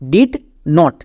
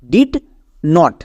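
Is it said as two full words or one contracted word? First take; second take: two words; two words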